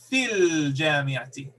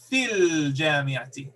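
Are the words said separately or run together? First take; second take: run together; run together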